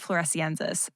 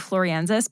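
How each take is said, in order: First: It is said with the 'es' syllable after 'flor'. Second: It is said without the 'es' syllable after 'flor'. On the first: The speaker calls it right. "but I think it's floresiensis" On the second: The speaker calls it wrong. "I always want to say floriensis"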